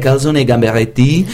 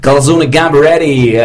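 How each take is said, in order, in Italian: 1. Viene detta con accento francese. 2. Viene detta con accento americano. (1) "in francese è" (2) "in americano si è"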